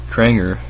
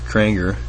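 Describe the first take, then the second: No difference in how they are said.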